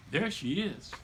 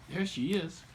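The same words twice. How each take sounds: The two takes are said the same way.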